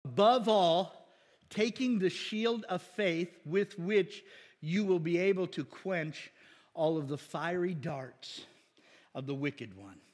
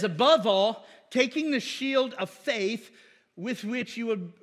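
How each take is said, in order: First: Deliberate, measured scripture reading; slow, clear, careful reading aloud. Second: Slow careful reading. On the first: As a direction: read each word slowly and carefully. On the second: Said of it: "don't say that too fast". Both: Shown as a demonstration.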